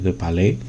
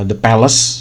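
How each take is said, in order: First: The name is said with a French pronunciation. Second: The name is said with an English pronunciation. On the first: "kalau pakai cara baca Prancis" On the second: "the Palace sebetulnya disebutnya sih"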